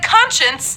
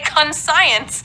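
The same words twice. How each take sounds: First: It uses the usual everyday pronunciation. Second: It is sounded out the way it looks.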